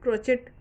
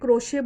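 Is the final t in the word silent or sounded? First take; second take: sounded; silent. First: The final t is sounded, ending in -chet. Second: The final t is silent, ending in -shay. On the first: This is how people in India say it. "क्रोचेट ऐसे शब्द से हम क्रोशिया समझते हैं" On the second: This is how people in England and America say it. "टी जो है वो बोला नहीं जाता है, साइलेंट होता है वो"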